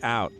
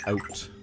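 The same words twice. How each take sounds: First: "Out" said the American way, with an open ah start; "Out" in American pronunciation. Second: "out" with a chewed, rounded O-U sound; "out" in Canadian pronunciation, rounded diphthong. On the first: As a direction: say "Out" like an American, wide vowel. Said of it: "Americans are like". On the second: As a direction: say "out" like a Canadian, chewing on the vowel. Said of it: "chew on the O and the U sound". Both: Shown as a demonstration.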